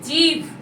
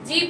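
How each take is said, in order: First: The word ends in an aspirated bh sound. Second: The word ends in a plain b sound. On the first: The speaker calls it right. "ভ" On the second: The speaker calls it wrong. "নয়"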